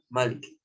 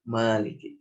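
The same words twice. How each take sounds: First: The first vowel is kept short. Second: The first vowel is drawn out long. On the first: It means king. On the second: It means owner, the one who possesses.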